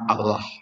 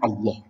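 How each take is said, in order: First: The vowels sound like a. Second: The vowels sound like o. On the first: The speaker calls it wrong. "tidak akan Allah" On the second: The speaker calls it right. "mestinya bacanya Allah"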